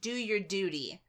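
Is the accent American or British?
American. It is said in an American accent.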